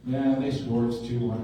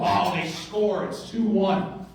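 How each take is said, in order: First: It is said flatly, with no emotion. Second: It sounds dismayed, like the worst thing ever.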